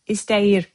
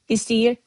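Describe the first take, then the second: First: The word is pronounced fully, every sound clear. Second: The word is pronounced in a shortened, casual form. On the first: This is the form used in writing. "written language" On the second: This is how people say it in everyday speech. "spoken language"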